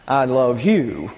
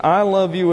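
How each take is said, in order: First: "you" drawn out with a falling tune; slow line, weight landing on "you"; stress on YOU. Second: "I" lifted higher as the strongest word; stress on I. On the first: Teacher showing love that depends on the object, stress on "you". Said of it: "stress is on the direct object". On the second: Teacher showing virtuous human love, stress on "I". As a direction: lean on "I", not on "you". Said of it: "stress has to be on the subject". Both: Shown as a demonstration.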